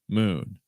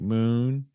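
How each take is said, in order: First: The pitch falls at the end. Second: The pitch rises at the end.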